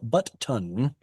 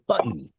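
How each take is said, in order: First: The t is pronounced twice, split between syllables. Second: The t is pronounced once as a single sound. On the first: The speaker calls it wrong. "nobody says but ton" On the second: The speaker calls it right. "but rather button"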